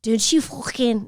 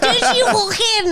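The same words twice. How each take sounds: First: Slow, clumsy attempt at a Scouse accent; a first go at a Liverpool Scouse accent. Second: Put-on higher, slow second go at a Scouse accent. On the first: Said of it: "Go for it and try". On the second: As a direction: push the Scouse accent up high. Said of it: "Never do that again".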